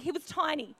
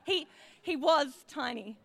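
First: Said in the usual way. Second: Tiny stretched out slowly, lingering on it; slow emphasis on tiny. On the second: Shown as a demonstration. Showing the congregation Roger's size, slow emphasis. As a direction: draw out the word tiny.

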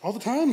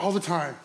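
First: "All the time?" lifted into a question. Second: "All the time." lower, falling to a close; confirming. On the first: Driver checking with the cop, questioning rise on "time". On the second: Cop confirming to the driver, falling tune on "time". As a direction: state "All the time." as settled fact. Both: Retold or imitated.

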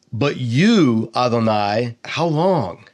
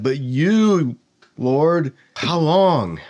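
First: Said in the usual way. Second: Anguished plea. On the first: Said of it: "It doesn't even finish the sentence". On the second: Shown as a demonstration. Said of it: "Like, I'm terrified".

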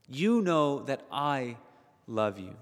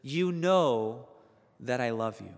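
First: Tender, slower. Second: Said in the usual way. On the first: Retold or imitated. Peter to Jesus at breakfast, tender earnest affirmation. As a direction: linger on it like a confession. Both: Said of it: "He says".

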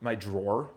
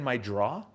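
First: Said in the usual way. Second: New York "drawer" said as "draw", no final R; New York accent. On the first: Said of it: "whatever you call it". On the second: Real, not acted. Speaker slips while describing his phone habit, New York accent. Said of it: "that's my New York accent".

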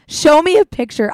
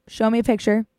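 First: Higher and louder, a pushy command; bossy demand. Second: Said in the usual way. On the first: Shown as a demonstration. Vetting a cute boy at a party, pushy and loud. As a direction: demand it like an interrogation. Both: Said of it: "that's literally what I do".

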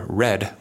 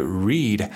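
First: "read" said as red, with a short e; short, unstressed "read", like RED; past-tense read. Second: "read" said as reed, with a long ee; long, stressed "read", like REED; present-tense read. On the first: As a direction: say "read" to rhyme with bed. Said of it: "pronunciation is an unstressed syllable". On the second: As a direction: say "read" to rhyme with need. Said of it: "pronunciation is a stressed syllable". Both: Shown as a demonstration.

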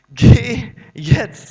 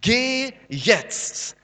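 First: Much louder, slow commanding Geh jetzt; emphatic command. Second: Said in the usual way. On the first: Acted. Preacher repeating God's order to Moses, much louder. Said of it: "sagt sie". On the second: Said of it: "sagt die Hoffnung für alle".

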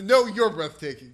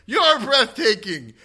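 First: Loud, high imitated comeback; raised-voice retold reply; playful retort. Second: High, drawn-out fan shout; loud mock heckle, pitched way up; imitated audience yell. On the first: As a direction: throw the compliment back at the crowd, loudly. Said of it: "he laughs and points back and says". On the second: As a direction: holler it slowly, like a fan from the crowd. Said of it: "someone in the audience yells out".

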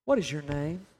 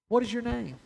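First: Low-pitched question after a long pause; quiet, grave question set low; measured, low question. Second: Searching question, pitched up; repeated question, raised pitch. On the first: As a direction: ask it low and deliberately. Jesus's question, staged twice with long pauses. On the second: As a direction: lift the pitch, then let it fall. Same question repeated after long pause. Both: Acted.

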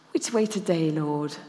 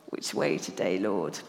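First: Said in the usual way. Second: Low, soft whispered prayer; whispered prayer at the signpost; hushed whisper. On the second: Shown as a demonstration. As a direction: breathe it to God privately. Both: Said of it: "hence the signpost".

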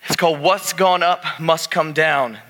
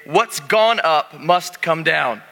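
First: Said in the usual way. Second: Slow, spelled-out words for the congregation to repeat; slow call-and-response. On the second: Shown as a demonstration. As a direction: model the phrase slowly so they echo it. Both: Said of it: "turn to your neighbor and say".

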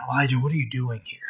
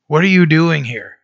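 First: Hushed, quick and much softer, lower-edged murmur; whispering. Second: Said in the usual way. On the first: Retold or imitated. Preacher voices the Lord whispering to Elijah in the cave, hushed. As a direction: drop right down to a near-whisper, imitating God's whisper. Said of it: "that the Lord whispers". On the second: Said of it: "that the Lord whispers to, uh, to Elijah".

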